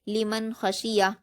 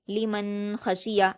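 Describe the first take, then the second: First: The n is said quickly without nasal hum. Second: The n is held with a nasal hum. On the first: The speaker calls it right. "जल्द पढ़ा जाता है" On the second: The speaker calls it wrong. "ऐसे नहीं पढ़ना, नहीं तो ये गुन्ना हो जाएगा"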